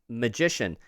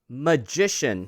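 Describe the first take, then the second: First: The word is said in an ordinary, relaxed way. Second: The word is said with exaggerated, careful articulation.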